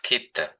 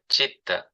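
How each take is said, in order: First: The word begins with a k sound. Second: The word begins with a ch sound. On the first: The speaker calls it wrong. "It's not kita" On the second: The speaker calls it right. "C is the ch sound, like chitta"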